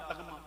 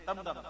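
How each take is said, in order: First: تغمہ said taghma, gh before m; تغمہ as in the original, taghma; تغمہ voiced taghma; original pronunciation. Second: تمغہ said tamgha, m before gh; تمغہ the everyday tamgha; تمغہ voiced tamgha; common pronunciation. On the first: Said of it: "اصل کیا ہے؟". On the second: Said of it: "نہیں، تمغہ". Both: Shown as a demonstration.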